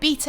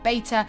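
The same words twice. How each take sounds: First: The word has a British pronunciation. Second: The word has a non-British pronunciation. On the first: "I'm British ... I pronounce it beta" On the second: "and not beta"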